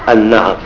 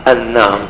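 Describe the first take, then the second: Both takes have the same delivery.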